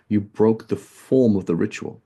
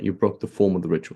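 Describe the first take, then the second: First: "form" lifted and drawn out slowly; slow emphatic stress. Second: Said in the usual way. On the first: Shown as a demonstration. Teacher driving home the point to students, slow and emphatic. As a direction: lean hard on "form", slowing the whole phrase.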